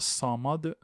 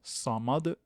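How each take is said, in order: The two takes are said the same way.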